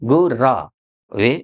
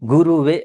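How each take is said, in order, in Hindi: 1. दूसरे अक्षर में छोटा a स्वर है। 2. दूसरे अक्षर में u स्वर है।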